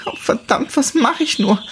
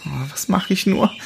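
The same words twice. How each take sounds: First: She spirals into panic; rising panic. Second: High, anxious self-talk; a young she-wolf fretting to herself; worried muttering. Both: Acted. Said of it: "sagte sie immer wieder zu sich selbst".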